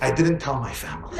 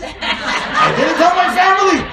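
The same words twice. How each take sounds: First: Said in the usual way. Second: High, loud and slow through laughter; laughing punchline. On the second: Shown as a demonstration. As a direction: repeat the line cracking up. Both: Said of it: "repeated punchline".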